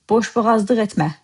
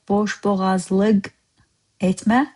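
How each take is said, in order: First: The last syllable of boğazlık starts with d. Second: The last syllable of boğazlık starts with l. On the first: "I said, ... Lık turned into dık" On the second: "You write here"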